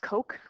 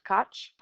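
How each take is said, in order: First: The name ends with a hard k sound. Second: The name ends with a ch sound. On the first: The speaker calls it right. "It's Coke" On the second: The speaker calls it wrong. "not Koch"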